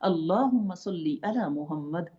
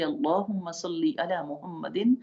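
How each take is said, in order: First: It stops on 'Muhammad', dropping the final -in. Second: It runs on, ending 'Muhammadin' with the -in. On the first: The reader stops here to take a breath. "अगर आप उसको रोकना चाहते हैं, साँस लेके" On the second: The reading continues in one breath. "जारी रखना है, पूरा एक ही साँस में पढ़ते जाना है"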